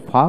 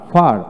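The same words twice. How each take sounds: First: ফা with the r left off; non-rhotic ফা, no r; silent r. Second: ফার with its final r pronounced; r sounded. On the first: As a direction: end ফা on an open "aa". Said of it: "র উচ্চারণ হবে না". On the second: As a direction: finish ফার on an audible r. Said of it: "ফার উচ্চারণ বেশি হয়". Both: Shown as a demonstration.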